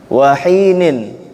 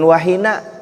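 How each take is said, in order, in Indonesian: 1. Kata itu berakhir dengan bunyi -in. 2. Kata itu berakhir dengan vokal a pendek. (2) "bukan wahina"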